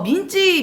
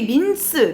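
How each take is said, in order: First: The word ends with a 'ji' syllable. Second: The word ends with an 's' sound. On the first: It is the kitchen slang form. The speaker calls it wrong. "민스를 일본식으로 발음을 잘못하다 보니까 민지라는" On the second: It is the original pronunciation. The speaker calls it right. "원래 발음은 이제 민스고요"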